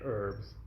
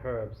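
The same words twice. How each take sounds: First: It is said in an American accent. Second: It is said in a British accent.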